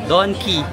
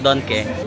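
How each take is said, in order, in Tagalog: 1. Ang huling patinig ay mataas na 'ee' na tunog. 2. Ang huling patinig ay gitnang 'eh' na tunog. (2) "not Donke. / the Bisaya in me is sumasanib"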